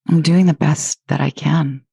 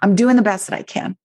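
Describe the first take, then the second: First: It is said in a gentle, kind tone. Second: It is said in a defiant, pushing tone.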